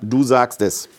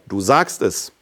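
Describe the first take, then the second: First: It is said flat, with no word stressed. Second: One word is clearly stressed.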